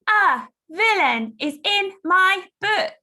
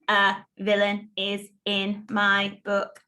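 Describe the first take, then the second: First: The sentence is shouted loudly. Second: The sentence is said in a robotic voice. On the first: "Let's shout it out loud" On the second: "Let's robot it"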